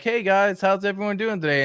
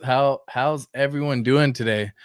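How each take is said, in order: First: Higher, cheery mock greeting; imitating Richard Hart. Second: Said in the usual way. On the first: Vlogger imitating Richard Hart's tweet greeting, higher and cheery. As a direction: chirp it like a friendly host saying hi. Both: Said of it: "he comes in and he's like".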